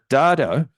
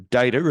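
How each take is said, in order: First: The word has a non-American pronunciation. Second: The word has an American pronunciation.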